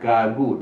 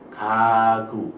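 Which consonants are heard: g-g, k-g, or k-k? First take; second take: g-g; k-g. First: Both consonants are g sounds. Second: A k sound comes first, then a g sound. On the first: The speaker calls it wrong. "bukan gagu" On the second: The speaker calls it right. "tapi kagu"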